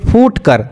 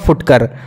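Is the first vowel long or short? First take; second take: long; short. First: The first vowel is a long u. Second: The first vowel is a short u. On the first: The speaker calls it wrong. "अगर फा में दुर्गव होता तो हम लोग इसको पढ़ते फूटकर" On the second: The speaker calls it right. "फा में हर्षऊ है तो इसको पढ़िएगा फुटकर"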